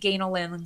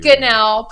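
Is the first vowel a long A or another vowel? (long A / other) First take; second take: long A; other. First: The first vowel is a long A. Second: The first vowel is not a long A. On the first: The speaker calls it right. "it's phonetically Ganelin long A" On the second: The speaker calls it wrong. "What's the most common mispronunciation of you?"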